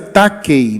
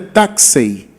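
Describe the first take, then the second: First: The middle consonant is a hard k sound. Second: The middle consonant is a breathy, fricative sound. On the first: The speaker calls it wrong. "a pronúncia era takei" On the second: The speaker calls it right. "a pronúncia mais correta é taxei"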